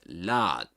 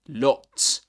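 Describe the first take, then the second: First: It is said in an American accent. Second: It is said in a British accent. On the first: "in American English you get lot" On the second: "this is in British English. You get lots"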